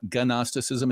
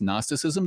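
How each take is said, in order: First: The initial G is pronounced. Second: The initial G is silent. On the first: The speaker calls it wrong. "It's not" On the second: The speaker calls it right. "The G is silent"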